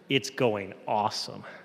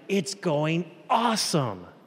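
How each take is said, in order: First: The tone is sarcastic and mocking. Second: The tone is sincere and genuinely enthusiastic. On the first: The day is not going well. "the second time I was being sarcastic" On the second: The day really is going well. "the first time I meant it's really going well"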